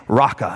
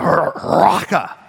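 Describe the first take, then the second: First: Said in the usual way. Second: Raka drawn out slowly and spat like hawking phlegm. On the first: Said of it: "raka is this word that's supposed to insinuate spitting". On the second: Shown as a demonstration. Preacher demonstrating raka as a spit, slow and spat. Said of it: "raka would be the sound".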